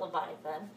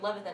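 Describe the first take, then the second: First: The name is said with four syllables. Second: The name is said with three syllables. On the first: The speaker calls it wrong. "it's not Leviathan" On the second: The speaker calls it right. "that's how you say it"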